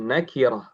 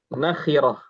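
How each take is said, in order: First: The middle consonant is a plain k. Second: The middle consonant is a harsh, raspy kh. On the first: The speaker calls it wrong. "bukan nakirah" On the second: The speaker calls it right.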